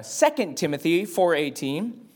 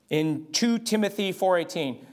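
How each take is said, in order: First: Said in the usual way. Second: Lightly South African, saying "two Timothy" for Second Timothy; a hint of a South African preacher reading "two Timothy four eighteen". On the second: Shown as a demonstration. Preacher showing his congregation the South African way of citing scripture. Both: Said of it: "that's how they say it in South Africa".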